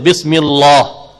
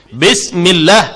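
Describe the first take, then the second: First: The l is heavy and thick. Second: The l is light and thin. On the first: The speaker calls it wrong. "Bismillah itu tebal, salah" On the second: The speaker calls it right. "mesti dibaca dengan nipis pada lam"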